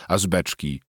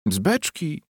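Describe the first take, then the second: First: Said in the usual way. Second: High incredulous repeat; mocking echo. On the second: A narrator's reading. Wife throwing husband's answer back, high mockery.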